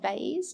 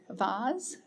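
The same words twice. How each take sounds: First: The vowel is an 'ay', rhyming with maize. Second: The vowel is a long 'ah', rhyming with Mars. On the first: "I don't say vase to rhyme with maize" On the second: "I say things like vase to rhyme with Mars"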